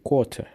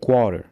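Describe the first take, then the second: First: It is said with a neutral, international accent. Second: It is said with an American accent. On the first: The speaker calls it right. "la prononciation universelle" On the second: The speaker calls it wrong. "essaient de copier l'anglais américain ou l'accent américain"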